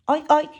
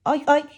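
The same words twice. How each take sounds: The two takes are said the same way.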